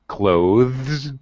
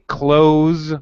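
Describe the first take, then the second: First: A voiced 'th' sound comes before the z. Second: The 'th' sound is left out before the z. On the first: "voiced T H and then Z" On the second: "leave out the T H sound"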